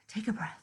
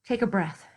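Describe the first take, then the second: First: Much softer, almost breathed; soft calming. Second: Said in the usual way. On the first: Shown as a demonstration. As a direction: gently guide them to breathe.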